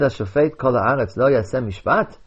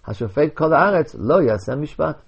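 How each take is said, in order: First: It is one unbroken question. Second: A break after haaretz, then a command.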